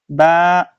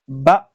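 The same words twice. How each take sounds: First: The vowel is drawn out long. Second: The vowel is short and clipped. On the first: The speaker calls it wrong. "You do not say" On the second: The speaker calls it right. "you don't elongate that sound. So a, ba... like that"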